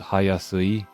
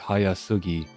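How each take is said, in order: First: The word ends with a plain 'i' sound. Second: The word ends with a hard 'gi' sound. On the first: This is an old-fashioned form. "But she says Hayasui" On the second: This is the modern standard form. "Modern Japanese, it would be Hayasugi"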